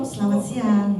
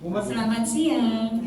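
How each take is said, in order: First: Smiling voice. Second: Slow, friendly greeting said through a smile; drawn-out smiling hello. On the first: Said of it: "Ibu juga senyum". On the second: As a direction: greet them slowly with a real smile. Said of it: "Ibu senyum duluan". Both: Shown as a demonstration.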